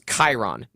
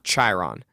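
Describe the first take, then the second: First: The name begins with a k sound. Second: The name begins with a ch sound. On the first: The speaker calls it right. "the C H sound in and the spelling in Greek is is a k sound" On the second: The speaker calls it wrong. "not Chiron"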